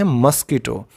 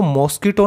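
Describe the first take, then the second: First: मस्कीटो with a short first vowel and long ee, mus-kee-to; मस्कीटो said mus-kee-to, stress on the middle; correct pronunciation. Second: मॉस्किटो with a long open o, maas-ki-to; मॉस्किटो spoken as maw-ski-to; wrong pronunciation. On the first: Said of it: "इसको हम बोलते हैं मस्कीटो". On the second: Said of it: "इसको मॉस्किटो नहीं बोलते बच्चों". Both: Shown as a demonstration.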